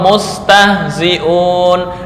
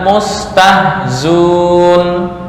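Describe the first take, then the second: First: The hamza in the middle is pronounced. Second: The hamza in the middle is dropped.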